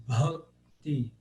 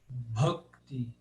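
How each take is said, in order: No difference in how they are said.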